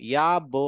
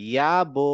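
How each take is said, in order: The two takes are said the same way.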